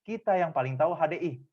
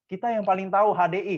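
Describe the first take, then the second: First: Kata "kita" ditekan, nada turun di akhir; penekanan pada kita. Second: Kata "tahu" diangkat lebih tinggi dan lebih keras; penekanan pada tahu. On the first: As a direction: volume biasa, tekanan di awal pada "kita". (tekan kata "kita", akhiri dengan nada turun) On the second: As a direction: seluruh kalimat lebih keras, puncak di "tahu". (tekan kata "tahu" dengan suara lebih keras) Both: Shown as a demonstration.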